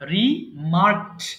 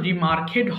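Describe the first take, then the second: First: The ending is joined without an extra syllable. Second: The ending is said as an extra syllable. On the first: The speaker calls it right. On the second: The speaker calls it wrong. "এটা কিন্তু রিমার্কেড হবে না"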